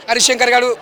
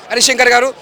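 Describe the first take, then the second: No difference in how they are said.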